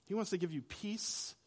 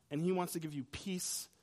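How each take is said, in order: First: "wants" carries the weight, softer overall; soft, with "wants" picked out; stress on wants. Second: "he" carries the weight, not "wants"; soft, with "he" picked out; stress on he. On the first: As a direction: lean on "wants", rising toward the end. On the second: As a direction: lean on "he", with a rise. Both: Shown as a demonstration.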